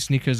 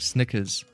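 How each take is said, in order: First: The first vowel is a long 'ee' sound. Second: The first vowel is a short 'i' sound. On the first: The speaker calls it wrong. "I'm saying sneakers and not Snickers... I'm pronouncing it wrong" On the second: The speaker calls it right. "That's the right way"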